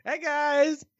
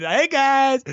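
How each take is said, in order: First: Much higher, light hey guys; chirpy mock hello; squeaky mock greeting; playful greeting voice. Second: Higher, louder sing-song hey guys; a goofy vlogger hello; mock YouTuber hello; playful greeting voice. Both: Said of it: "Hey Guy is really hard not to do that".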